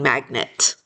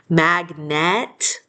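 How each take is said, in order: First: The second syllable has a reduced, lazy schwa vowel. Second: The second syllable has a full, clear E vowel. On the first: "we usually end up just saying magnet" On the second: "instead of saying it magnet"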